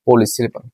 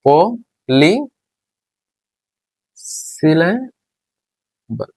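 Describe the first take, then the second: First: Said in the usual way. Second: polysyllable very slow, long pauses between পো, লি and সিলে; syllable by syllable. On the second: Shown as a demonstration. Teacher dictating the fourth term as it is written, syllable by syllable. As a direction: stretch and separate each part of polysyllable.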